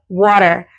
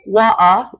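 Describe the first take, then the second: First: It is said in an American accent. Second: It is said in a British accent. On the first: "Americans say" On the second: "the British accent is water"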